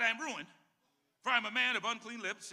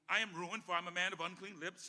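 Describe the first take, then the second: First: It is read slowly. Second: It is read fast.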